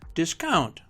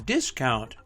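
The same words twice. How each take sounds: First: The stress is on the second syllable. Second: The stress is on the first syllable. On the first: It is used as a verb. "Two-syllable verbs are stressed on the second syllable" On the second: It is used as a noun. "Two-syllable nouns are stressed on the first syllable"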